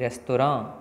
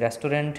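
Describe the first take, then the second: First: The ending is nasal with no t. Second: The ending has a full n and t. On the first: "तो ये भी रेस्तोरां" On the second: "जैसे रेस्टोरेंट है"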